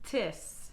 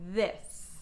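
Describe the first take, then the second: First: It begins with a hard t sound. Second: It begins with a soft th sound. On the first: The speaker calls it wrong. "If it goes too high, I would say tis or dat" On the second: The speaker calls it right. "The tongue's staying still in between my teeth"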